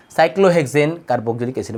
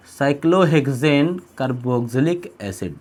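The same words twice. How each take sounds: First: Moderately slow, steady naming; measured repeat. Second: Very slow, drawn-out term, a little lower; slow dictation. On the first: Teacher repeating the compound's name to students, measured. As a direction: repeat the term at a measured pace. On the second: Teacher giving students the compound's name, slow dictation. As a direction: stretch out each part of the name. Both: Shown as a demonstration.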